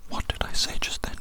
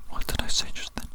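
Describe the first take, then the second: No difference in how they are said.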